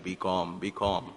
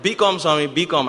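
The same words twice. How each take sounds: First: A hint of a father's low calm voice; lightly voicing his father's calming words. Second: Loud call, pitched higher; urgent call. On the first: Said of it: "my father's voice from behind". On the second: Retold or imitated. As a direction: call out urgently to get Swami's attention. Urgently calling out to Swami.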